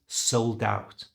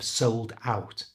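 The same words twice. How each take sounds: First: The D links onto out in one breath. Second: The two words are said separately.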